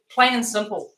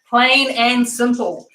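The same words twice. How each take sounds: First: Said in the usual way. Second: "Plain and simple" slowly, each word given weight; emphatic repeat. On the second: Real, not acted. Cook summing up the dish, "Plain and simple" slow and emphatic.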